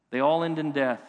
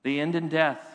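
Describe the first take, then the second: First: All leaned on, the peak of the line; stress on all. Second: Said in the usual way. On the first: Shown as a demonstration. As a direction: press the word all so it lands.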